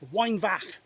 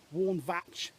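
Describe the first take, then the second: First: The name is said with a Welsh-style pronunciation. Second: The name is said with an English-style pronunciation. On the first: "I should say" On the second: "for English people"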